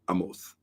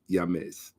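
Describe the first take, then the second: First: The name begins with a vowel sound. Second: The name begins with a Y sound. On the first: This follows the Western reading of the spelling. "Western orthographic pronunciation" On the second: This is the original pronunciation of the name. "if you're going to do the correct pronunciation, it's actually Yames"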